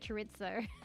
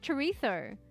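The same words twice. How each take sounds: First: The z is said without a th sound. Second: The z is said as a soft th. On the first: "Nah, fuck it. Let's just say chorizo" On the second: "you can say replace the Z with a T H"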